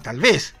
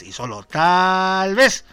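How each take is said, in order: First: Said in the usual way. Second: "tal vez" slow and louder, vez drawn out rising; stress on vez. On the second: Shown as a demonstration. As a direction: lean hard on "solo tal vez", slowly.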